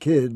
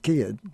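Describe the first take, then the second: First: The vowel is a plain short i. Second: The vowel is shifted in the Southern way. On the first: "the short I sound, as in kid" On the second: "becomes kid"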